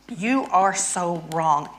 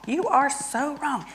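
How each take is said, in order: First: Drawn out, slow and heavy; slow mock scolding. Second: High exasperated jab. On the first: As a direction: lean on every word, slowly. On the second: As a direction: pitch jumps up on "You are so wrong". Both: Shown as a demonstration. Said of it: "so I'm angry at my husband".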